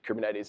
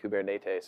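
First: It is pronounced in the usual English way. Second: It is pronounced in a Greek-like way. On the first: The speaker calls it wrong. "We actually pronounce it wrong" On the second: The speaker calls it right. "if you're actually Greek, you pronounce it something like"

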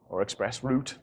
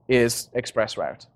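First: Route is said in a British way. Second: Route is said in a non-British way.

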